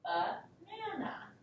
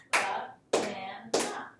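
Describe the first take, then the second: First: Said in the usual way. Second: Banana slowed right down, ba-na-na, each syllable hit; clapped out syllables. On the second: Shown as a demonstration. Teacher claps out Banana syllable by syllable for the class. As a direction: clap out Banana beat by beat. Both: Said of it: "pace out the sounds with your hands".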